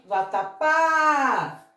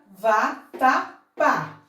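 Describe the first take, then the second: First: "vatapá" with the final PÁ held long; one run of "vatapá", ending on a long drawn-out á; called-out stressed syllable. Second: "vatapá" very slowly, split VA, TA, PÁ; syllable by syllable. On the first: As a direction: call out "vatapá", stretching the last syllable. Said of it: "E chamando essa palavra". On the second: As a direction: pause between each syllable of "vatapá". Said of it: "temos a sílaba tônica justamente aqui". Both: Shown as a demonstration.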